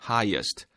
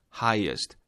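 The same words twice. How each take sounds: The two takes are said the same way.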